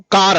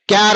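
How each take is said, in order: First: కార్ said as "kaar" with a plain k and no y glide; correct pronunciation demo. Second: క్యార్ said as "kyaar" with a y glide after k; wrong pronunciation demo. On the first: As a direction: model the right way: కార్ as "kaar". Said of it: "కార్ అనండి". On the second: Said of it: "అనకూడదు". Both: Shown as a demonstration.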